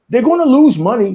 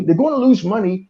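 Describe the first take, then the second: First: Louder and higher on lose money; loud rant. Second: Said in the usual way. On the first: Real, not acted. Fan ranting at studio, raised voice. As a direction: shout it out, lose stressed.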